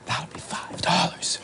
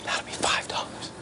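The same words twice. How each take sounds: First: Drawn-out hushed whisper, rising at the end; slow repeated whisper. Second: Hushed voiceless whisper; leaning in to whisper. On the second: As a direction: lean in close and whisper the price. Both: Retold or imitated. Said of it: "I've got to whisper".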